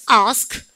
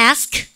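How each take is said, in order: First: "ask" with a long back "ah"; British-style "ask", as "ahsk"; British pronunciation. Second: "ask" with the front "a" of "cat"; American-style "ask", as "aesk"; American pronunciation. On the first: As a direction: say "ask" with a broad A. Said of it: "영국 애들은". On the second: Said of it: "미국 애들". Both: Shown as a demonstration.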